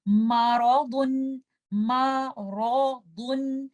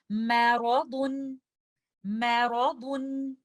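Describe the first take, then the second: First: मारादुन with a heavy, full मा, slow; wrong way: make the meem heavy in मारादुन. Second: मैरादुन with a light, thin मै as in apple, slow; light meem. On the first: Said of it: "आपने इसको इस तरह से नहीं पढ़ना". (मारादुन भारी मीम के साथ, गलत तरीका) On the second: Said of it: "तो हम इसको इस तरह से पढ़ेंगे". (मैरादुन हल्के मीम के साथ, धीरे) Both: Shown as a demonstration.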